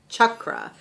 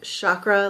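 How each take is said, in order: First: The word begins with a hard ch sound. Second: The word begins with a soft sh sound. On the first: This is the traditional Sanskrit pronunciation. "the traditional way, like the correct way to say it ... with a like a really hard C H" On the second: This is the common modern pronunciation. "popular way that people pronounce it ... like S H"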